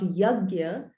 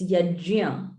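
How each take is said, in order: First: The middle consonant is a hard 'g' sound. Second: The middle consonant is a soft 'j' sound. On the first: The speaker calls it wrong. "it's not yagya" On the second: The speaker calls it right. "it's yajia"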